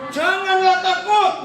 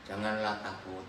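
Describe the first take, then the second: First: High, loud, slow and firm; bold reassurance. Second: Flat reading. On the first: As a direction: proclaim it to banish fear. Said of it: "Harusnya gimana kalau membaca?". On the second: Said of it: "Tadi gimana intonasi saudara?". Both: Shown as a demonstration.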